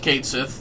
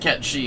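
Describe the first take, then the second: First: It is said like 'Kate Sith', ending in 'th'. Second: It is said like 'Ket Shee', ending in 'sh'. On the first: The speaker calls it right. "I'm respecting the F F seven remake pronunciation" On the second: The speaker calls it wrong. "Not Ket She"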